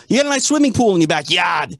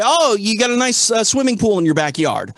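First: Said in the usual way. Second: Put-on Boston accent. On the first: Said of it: "I'm not gonna say". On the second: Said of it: "if I'm in Boston, I'm gonna say".

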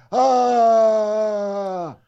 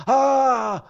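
First: Long high wailing fake sob; drawn-out hammed-up crying howl; bigger mock sob. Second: High wailing fake sob; hammed-up crying howl; mock sob. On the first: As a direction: stretch the pretend bawl out long. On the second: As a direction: let out a loud pretend bawl. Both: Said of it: "Bigger sob".

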